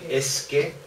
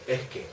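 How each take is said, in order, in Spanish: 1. La s en 'es' es una s silbante clara. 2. La s en 'es' suena como una h aspirada. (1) "nunca jamás fue capaz de decir es que" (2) "en Toledo decimos es que es con una H"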